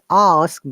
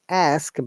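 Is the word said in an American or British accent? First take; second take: British; American. First: It is said with a British accent. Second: It is said with an American accent. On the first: "by the British I P A" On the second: "by the American I P A"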